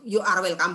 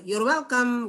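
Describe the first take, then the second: First: Both words 'you are' are said in full. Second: 'You are' is said quickly as one syllable. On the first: "cara ngomongnya ya you are welcome boleh" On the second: "tapi dicepetin kan boleh. You're welcome gitu"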